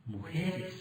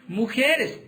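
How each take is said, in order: First: A near-whispered, much softer "Mujeres." after a long pause; hushed reveal. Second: Said in the usual way. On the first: Acted. Preacher to the congregation, revealing the answer in a hush. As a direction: drop the voice to almost nothing on "Mujeres.".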